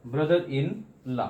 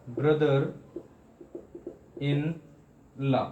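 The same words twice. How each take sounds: First: "brother इन लॉ" as one slow, measured phrase; joined up, measured. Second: "brother इन लॉ" with long pauses between all three words; broken into parts. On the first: Teacher putting the parts back together for students, measured. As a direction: run brother इन लॉ together with only slight breaks. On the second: Teacher showing students a many-part word, piece by piece. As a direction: separate brother ... इन ... लॉ, each standing alone. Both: Shown as a demonstration. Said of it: "कई बार में पढ़ सकें".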